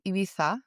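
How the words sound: It is pronounced the way people in Spain say it. The speaker is from Spain. "if you're from Spain, you say Ibiza"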